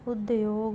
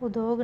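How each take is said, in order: First: उद्योग said as ud-yog; correct pronunciation. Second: उद्योग said as u-dog, no y; wrong pronunciation. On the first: Teacher giving the correction, उद्योग as ud-yog. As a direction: sound the y in उद्योग. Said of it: "होगा". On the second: Teacher showing a spelling error, उद्योग as u-dog. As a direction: drop the y from उद्योग. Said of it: "नहीं". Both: Shown as a demonstration.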